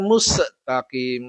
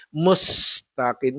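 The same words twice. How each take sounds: First: "mustaqim" broken by a vowel after S, mus-e-taqim; wrong MUSTAQIM. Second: "Mustaqim" with a held hiss on S running into T; correct MUSTAQIM. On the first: Teacher showing the mistake to avoid, broken "mustaqim". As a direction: add an extra "uh" after the S in "mustaqim". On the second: Teacher showing the right reading, slow "Mustaqim". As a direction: stretch the S in "Mustaqim", no vowel after it. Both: Shown as a demonstration. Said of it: "bukan mustaqim ya".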